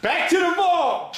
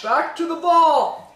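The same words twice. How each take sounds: First: Announcer call. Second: High, slowed announcer echo; announcer call. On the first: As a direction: announce it like a jingle. Announcing the segment. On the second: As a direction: boom it out like a jingle. Echoing the segment call. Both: Acted.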